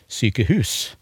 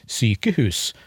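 First: The stress is on the last part. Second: The stress is on the first part. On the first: The speaker calls it wrong. "legger trykket på sjefsleddet" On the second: The speaker calls it right. "Det er som regel det første leddet"

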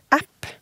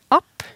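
First: The vowel sounds like the English word. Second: The vowel is a Norwegian short a. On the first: The word is borrowed from English. "det nok heller en forkortelse for engelsk application" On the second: The word is shortened from a native word. "og ikke app"

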